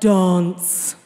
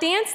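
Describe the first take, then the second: First: It is said in a fancy, posh voice. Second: It is said in a plain, ordinary voice.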